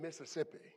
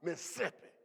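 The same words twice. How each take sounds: First: The word is said in a plain, neutral way. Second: The word is said forcefully, as if spitting. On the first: The speaker calls it wrong. "it isn't Mississippi" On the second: The speaker calls it right. "You have to say it as if you're going to spit on somebody"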